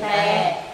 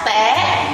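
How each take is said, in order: First: The pitch is low and falling. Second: The pitch is high and rising. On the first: "te huyền tè" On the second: "te sắc té"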